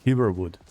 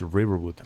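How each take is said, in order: First: The word starts with an H sound. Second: The word starts with an R sound.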